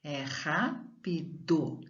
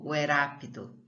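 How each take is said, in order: First: "rápido" slowly and softer, throaty initial R; slow quiet demo of the correct R; strong R. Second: "rápido" with a light tapped r; teacher offers the weak-R reading; wrong weak R. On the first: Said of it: "então é forte". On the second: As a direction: test the tapped version. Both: Shown as a demonstration.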